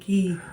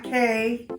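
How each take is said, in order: First: The word rhymes with see. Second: The word rhymes with day. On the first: The speaker calls it right. "it's Half Moon Key" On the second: The speaker calls it wrong. "It's not K"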